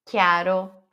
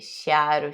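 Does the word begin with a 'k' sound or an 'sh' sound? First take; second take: k; sh. First: The word begins with a 'k' sound. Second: The word begins with an 'sh' sound. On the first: The speaker calls it right. "É que" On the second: The speaker calls it wrong. "não é che"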